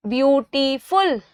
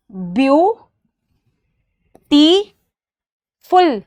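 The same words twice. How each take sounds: First: Said in the usual way. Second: "ब्यूटीफुल" very slow in three beats, ब्यू... टी... फुल; syllable by syllable. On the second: Shown as a demonstration. Teacher shows three syllables for counting, "ब्यूटीफुल" broken into slow separate beats. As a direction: stretch each syllable of "ब्यूटीफुल" with long pauses between. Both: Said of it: "one, टू, three".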